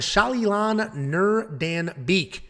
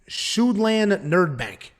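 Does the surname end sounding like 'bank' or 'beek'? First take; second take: beek; bank. First: The surname is said ending like 'beek'. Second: The surname is said ending like 'bank'. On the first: The speaker calls it right. "how well I'm doing with these pronunciations" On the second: The speaker calls it wrong. "a year ago, this dude's name would have been"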